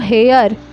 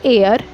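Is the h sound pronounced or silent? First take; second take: pronounced; silent. First: The h sound is pronounced. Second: The h sound is silent. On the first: The speaker calls it wrong. "ज़्यादातर सारे लोग क्या करते हैं" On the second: The speaker calls it right. "इसको हम pronounce करते हैं एयर"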